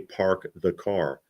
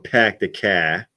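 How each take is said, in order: First: It has a mild, standard Boston accent. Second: It has a strong Revere or Southie accent.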